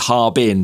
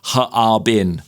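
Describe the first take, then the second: First: The word is said with two syllables. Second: The word is said with three syllables. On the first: The speaker calls it wrong. "it looks like it's Harbin, two syllables" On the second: The speaker calls it right. "but it's actually Harbin. So it's three"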